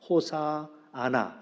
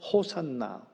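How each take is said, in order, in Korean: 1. 이 단어는 네 음절로 발음해요. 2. 이 단어는 세 음절로 발음해요. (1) "원래 이제 히브리로 얘기하는 건 호시아나라고 발음한다고 하는데" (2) "우리 발음 우리 번역은 호산나로 되어 있지요"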